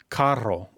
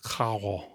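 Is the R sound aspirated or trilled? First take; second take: trilled; aspirated. First: The R is a rolled trill. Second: The R is a breathy, aspirated sound. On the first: "carro with a double R" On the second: "it might sound more aspirated, like cajo"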